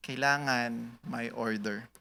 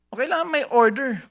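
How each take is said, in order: First: Slow, much softer echo; soft repeat. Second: High, punchy statement of need; emphatic declaration. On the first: Pastor repeating his point to the church, slow and soft. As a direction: let it sink in quietly. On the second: Pastor stressing order to the church, high and punchy. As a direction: say it bold and strong. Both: Shown as a demonstration.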